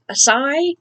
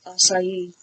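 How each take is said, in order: First: "Acai" in two syllables, "uh-SIGH", higher and rising; mispronounced acai. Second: "acai" slowly in three syllables, "ah-sigh-EE"; correct acai pronunciation. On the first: Retold or imitated. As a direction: imitate a guess at "Acai" as "uh-sigh?". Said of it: "listening to people try and pronounce it". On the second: Shown as a demonstration. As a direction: state "acai" surely, sounding out the final ee. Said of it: "try and pronounce it".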